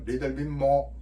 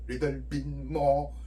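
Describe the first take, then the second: First: The phrase is said at a faster pace. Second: The phrase is said at a slower pace.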